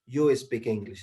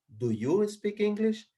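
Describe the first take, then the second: First: Said in the usual way. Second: "Do you speak English?" climbing high and held to the end; slow, high asking tune on "Do you speak English?"; question intonation. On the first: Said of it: "Ya no digo". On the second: Shown as a demonstration. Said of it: "La entonación cambia".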